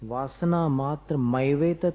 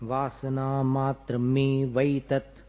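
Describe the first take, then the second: First: The word begins with the vowel 'ai'. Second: The word begins with the vowel 'e'. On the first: The speaker calls it wrong. "मैवेतत नहीं है" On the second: The speaker calls it right. "मे वैतत"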